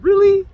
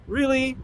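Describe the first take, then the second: First: Higher, louder indignant Really; sharp, raised disbelief; incredulous. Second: Softer disbelief. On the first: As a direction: fire it off in shocked disbelief. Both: Retold or imitated. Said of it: "in my head, I'm like".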